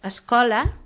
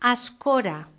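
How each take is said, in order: First: The middle consonant is an L sound. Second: The middle consonant is an R sound. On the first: "per dir escola" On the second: "ells diuen escora. La L és una R"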